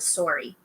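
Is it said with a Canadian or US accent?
Canadian. It is said with a Canadian accent.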